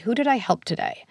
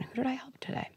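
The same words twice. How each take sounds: First: Said in the usual way. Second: Soft inner-voice whisper, higher; hushed, as the child's own thought. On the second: Pretend. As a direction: breathe it like a thought in the head. Kid's inner voice heard.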